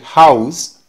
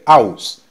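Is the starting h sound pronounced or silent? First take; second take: pronounced; silent. First: The word starts with an audible h sound. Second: The word starts with no h sound. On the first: "En lugar de decir house para casa" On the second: "va a decir house"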